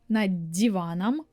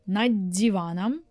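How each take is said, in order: Both takes have the same delivery.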